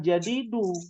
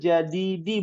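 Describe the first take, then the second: First: The word ends with a 'u' vowel. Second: The word ends with an 'i' vowel. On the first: The speaker calls it wrong. "bukan jadidu" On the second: The speaker calls it right. "al-ana lit-tabibil jadidi"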